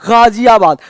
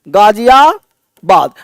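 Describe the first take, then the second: First: It begins with a throaty gh sound. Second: It begins with a plain g sound. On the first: "उस गा को गले से पढ़ते थे" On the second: "आप बोलते हो गाजियाबाद"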